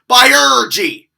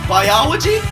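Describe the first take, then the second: First: The 'olo' middle is squashed into an 'er' sound. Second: The word is said with a plain 'ol' middle. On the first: The speaker calls it right. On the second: The speaker calls it wrong.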